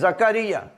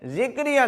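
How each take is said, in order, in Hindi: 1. पहला स्वर a जैसा सुनाई देता है। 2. पहला स्वर i जैसा सुनाई देता है। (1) "यह है जकरिया" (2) "इसकी जो जे है इसके नीचे जेर नहीं है, जिक्रिया नहीं है"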